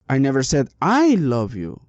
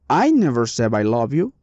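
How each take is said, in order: First: The stress falls on the second I. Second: The stress falls on the first word, I. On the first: Someone else loves you, not the speaker. "maybe I said someone else loved you, but not me" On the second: Someone else said it. "Here the meaning is maybe somebody else did it"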